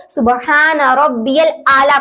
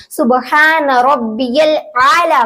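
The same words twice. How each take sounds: First: "आला" with a simple aa, no throat sound; ain flattened to alif. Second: Slow "आला" opening with a throaty ain; ain pronounced. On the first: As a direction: say "आला" wrongly with a plain vowel. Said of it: "को गलत पढ़ लेते हैं". ("आला" में "ऐन" की जगह अलिफ) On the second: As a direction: squeeze the start of "आला" from the throat. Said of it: "यहाँ पर आइन होगा". ("आला" में "ऐन", धीरे) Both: Shown as a demonstration.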